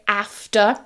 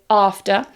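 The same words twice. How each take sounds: First: It is said with a northern English accent. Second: It is said with a southern English accent. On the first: "I'm from the north, so I say after" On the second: "If you're from the south, most people say after"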